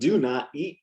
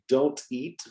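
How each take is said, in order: First: Do and not are said as two separate words. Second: Do and not merge into one contracted syllable. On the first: "the complete form" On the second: "you can say don't eat"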